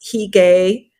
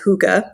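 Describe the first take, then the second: First: It is said in a non-Danish, spelled-out way. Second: It is said the Danish way, like 'hooga'. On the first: The speaker calls it wrong. "some people think it's Hygge" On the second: The speaker calls it right. "the proper way to say it is Huga. That's how it's pronounced in Danish"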